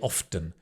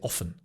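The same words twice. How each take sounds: First: The T sound in the middle is pronounced. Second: The T sound in the middle is silent. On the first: "Some people do, they say often" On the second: "I don't pronounce the T. ... it's easier to say often"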